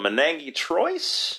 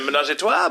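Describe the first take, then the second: First: It is read out literally, English-style, sounding every letter. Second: It is said French-style, with silent letters dropped. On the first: The speaker calls it wrong. "reading it and trying to pronounce it" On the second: The speaker calls it right. "I'm sure you mean a menage a trois"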